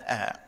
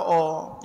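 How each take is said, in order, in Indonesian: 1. Vokalnya dilebarkan dan tipis, seperti 'ah'. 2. Vokalnya dibulatkan dan tebal, seperti 'oh'. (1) "yang ada a" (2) "tak ada oh"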